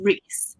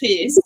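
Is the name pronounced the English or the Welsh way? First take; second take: English; Welsh. First: The name is given an English pronunciation. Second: The name is given a Welsh pronunciation. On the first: "no, it's Manon and Reese" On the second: "I say them proper Welsh"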